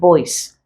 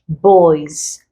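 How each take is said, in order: First: The word ends with an s sound. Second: The word ends with a z sound. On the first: The speaker calls it wrong. "rather than" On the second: The speaker calls it right. "it's no more s but z"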